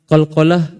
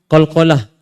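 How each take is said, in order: The two takes are said the same way.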